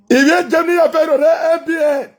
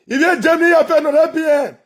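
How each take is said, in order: Both takes have the same delivery.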